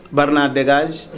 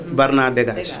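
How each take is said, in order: Both takes have the same delivery.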